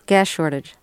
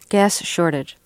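First: It is said fast. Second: It is said at a normal speed.

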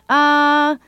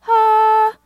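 First: It is in a low chest voice. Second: It is in a high head voice.

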